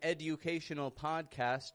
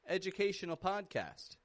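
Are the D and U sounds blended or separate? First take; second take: separate; blended. First: The D and U are said separately. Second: The D and U blend into a J sound. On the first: The speaker calls it wrong. "I'm not saying educate or education" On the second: The speaker calls it right. "No, this is an educational"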